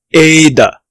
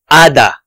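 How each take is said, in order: First: The name has a non-Filipino pronunciation. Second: The name has a Filipino pronunciation. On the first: The speaker calls it wrong. "not ADA" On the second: The speaker calls it right. "Because Pinoy ako, Pinoy tayo"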